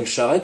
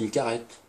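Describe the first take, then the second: First: The word begins with a soft sh sound. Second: The word begins with a hard k sound. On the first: This is the standard French form. "on dit pas une charrette" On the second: This is the local dialect form. "on dit une carrette"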